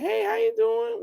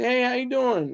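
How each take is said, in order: First: Very high falsetto imitation of a woman; soft, sweet woman's voice. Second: Said in the usual way. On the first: Imitating a woman friend answering his phone call, soft and sweet. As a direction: put on a sweet, high-pitched female voice. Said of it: "she had a real soft and sweet voice".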